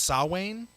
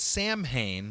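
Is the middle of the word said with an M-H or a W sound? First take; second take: W; M-H. First: The middle is said with a W sound. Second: The middle is said with M and H sounds. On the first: The speaker calls it right. "M and H makes the W sound" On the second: The speaker calls it wrong. "I've always pronounced it Samhain"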